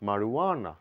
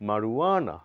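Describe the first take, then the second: No difference in how they are said.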